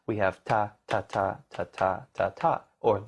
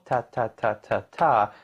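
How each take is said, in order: First: Ta ta long then short; swung eighths. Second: Ta ta sung evenly; even eighths. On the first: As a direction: stretch the first ta, clip the second. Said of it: "long, short in jazz". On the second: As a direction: keep every ta the same length. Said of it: "instead of them being equal". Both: Shown as a demonstration.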